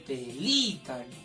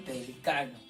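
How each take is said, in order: First: The stress falls on the syllable 'li'. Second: The stress falls on the syllable 'ca'. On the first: It names a bird. "acá dice pelícano, con énfasis" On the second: It names a grey-haired, experienced person. "Acá dice pelicano"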